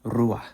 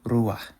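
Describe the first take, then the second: First: It ends in a soft emphatic h sound. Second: It ends in a soft emphatic h sound.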